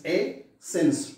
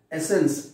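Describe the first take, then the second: First: "a, sense" as two separate beats, a pause between; split into syllables. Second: Said in the usual way. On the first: Shown as a demonstration. Teacher counting syllables for the class, "a, sense" pulled apart. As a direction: break the word after "a", then "sense". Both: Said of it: "two syllables".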